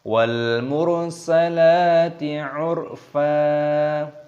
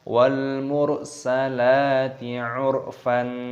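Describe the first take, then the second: First: The last word ends in a long vowel. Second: The last word ends with an n sound. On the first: The speaker calls it right. "Tapi wal mursalati urfa" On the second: The speaker calls it wrong. "Salah kalau kita membacanya wal mursalati urfan"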